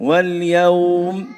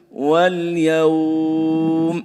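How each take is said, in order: First: The vowel is held for two counts. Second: The vowel is held for six counts. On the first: "اثنين" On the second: "ستة"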